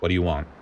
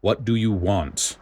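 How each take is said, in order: First: Flat voice. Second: Grouchy growl. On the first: A narrator's reading. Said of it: "In a flat voice". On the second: Acted. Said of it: "With a grouchy growl".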